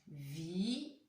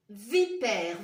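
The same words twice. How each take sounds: First: "Vipère" split softly as "vi… pè… re"; syllable-by-syllable reading. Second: Said in the usual way. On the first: Shown as a demonstration. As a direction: sound out "Vipère" slowly with pauses between parts. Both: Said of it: "Essayez bien de lire les mots".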